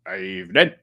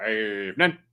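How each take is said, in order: First: Low, deadpan evening; lower-pitched mock greeting; reading out Dave's hello in a low voice; mimicking Dave. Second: Mimicking Dave. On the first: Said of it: "Like that". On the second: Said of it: "And Dave Smith says".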